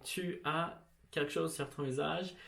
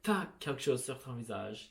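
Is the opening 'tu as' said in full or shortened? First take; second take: full; shortened. First: The opening is two full syllables. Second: The opening is contracted into one syllable. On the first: "instead of saying" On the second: "you can just say"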